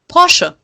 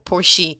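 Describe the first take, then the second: First: It is given the German pronunciation. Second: It is given an English speaker's pronunciation. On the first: The speaker calls it right. "That's how you say it" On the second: The speaker calls it wrong. "every English speaking person I know says Porsche or Porsche, which is wrong"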